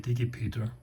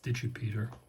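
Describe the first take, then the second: First: It is pronounced the German way. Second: It is pronounced the English way. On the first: "In Aus or in German we say Digipeater" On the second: "but I think it's Digipeater"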